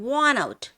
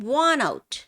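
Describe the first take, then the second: Both takes have the same delivery.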